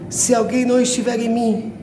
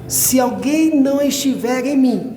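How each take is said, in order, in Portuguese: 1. É lida em ritmo normal de leitura. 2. É lida devagar, demorando-se em cada palavra.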